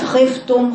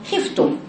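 First: The kha is thick and heavily emphasized. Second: The kha is light with a clear i vowel. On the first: The speaker calls it wrong. "وليست خفتم خي خطأ" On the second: The speaker calls it right. "بين جدا خفتم"

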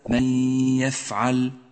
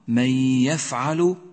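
First: The l sound is silent, without a vowel. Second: The l sound carries a short u vowel. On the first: The speaker calls it wrong. "وليس" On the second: The speaker calls it right. "فإنها كما تلاحظ مضمومة"

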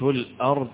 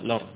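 First: The glottal stop after the article is pronounced. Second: The glottal stop is dropped, its vowel moving back. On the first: "بهذه همزة" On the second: "فينقل الهمزة فيقرأها الأرض"

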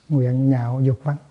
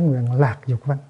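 First: The second word starts with an 'nh' sound. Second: The second word starts with an 'l' sound. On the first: The speaker calls it right. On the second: The speaker calls it wrong. "Chứ không có nói nguyện lạc dục văn"

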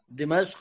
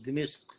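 First: The vowel after the m is 'a'. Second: The vowel after the m is 'i'. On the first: The speaker calls it right. "بفتح الميم" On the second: The speaker calls it wrong. "مش بكسر"

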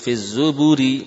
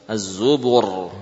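First: The r is pronounced light and thin. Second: The r is pronounced heavy and thick. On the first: The word is read in continuous flow. "Walaupun aslinya tipis" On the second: The word is at a stopping point. "Dhammah berarti tebal"

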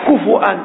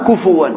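First: A glottal stop follows the f and its vowel. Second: A w sound follows the f and its vowel. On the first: "كفؤا بالهمس" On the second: "إذا بدون همس كفوا قراءة"

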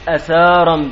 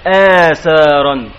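First: The first vowel is kept short. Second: The first vowel is drawn out long. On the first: The speaker calls it wrong. "خلافا لمن قال بالقصر" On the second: The speaker calls it right. "آثارا بالمد"

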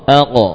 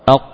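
First: The final q is released with a slight echo. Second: The final q stops abruptly with no echo.

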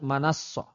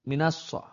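First: The first syllable has the vowel a. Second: The first syllable has the vowel i. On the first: The speaker calls it wrong. "bukan manassoh" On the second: The speaker calls it right. "Minassoh, bukan manassoh"

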